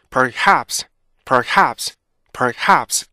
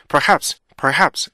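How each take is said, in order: First: Perhaps in two measured beats, per-HAPS. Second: Perhaps rushed, beats squeezed together. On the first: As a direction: draw out perhaps with every consonant heard. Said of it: "이렇게 읽어야 되는데". (또박또박 리듬 있게 perhaps) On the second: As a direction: hurry through perhaps, losing its rhythm. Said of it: "이렇게 빨리 읽으면 안 돼요". (리듬 없이 빠르게 perhaps) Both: Shown as a demonstration.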